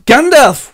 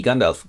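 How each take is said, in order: First: GANDALF cried out high and loud; amazed exclamation. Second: Said in the usual way. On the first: Acted. Friends recognise returned wizard, loud amazed cry. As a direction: shout the name in astonishment.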